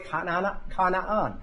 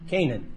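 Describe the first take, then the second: First: The name has a non-Western, more original pronunciation. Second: The name has the usual Western English pronunciation. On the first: This is how the name is really said. The speaker calls it right. "but it's really Canaan" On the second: This is how Westerners say the name. The speaker calls it wrong. "that's the way we say it because we're Westerners"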